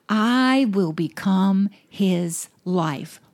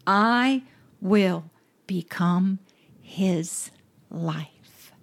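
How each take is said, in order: First: "I will become his life" said very slowly, each word weighted; slow emphatic repeat. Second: Slow, dropping to a hushed whisper on the last words; fading to a whisper. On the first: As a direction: spell it out slowly so it lands. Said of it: "let the Holy Spirit explode that word in you". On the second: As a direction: let each word sink into a whisper. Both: Acted.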